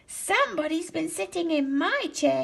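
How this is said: It is said in a small, little voice. A small baby bear is speaking. "he said in his little voice"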